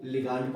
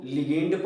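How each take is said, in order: First: "लिगांड" with a long "aa" in the second syllable; "लिगांड", li-gaand, not li-gaynd; variant pronunciation. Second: "लिगेंड" with an "ay" vowel in the second syllable; "लिगेंड", li-gaynd, not li-gaand; variant pronunciation. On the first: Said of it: "कुछ लोग इसको लिगांड पढ़ते हैं". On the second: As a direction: say "लिगेंड" as li-GEND. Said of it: "कुछ लोग इसको लिगेंड पढ़ते हैं". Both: Shown as a demonstration.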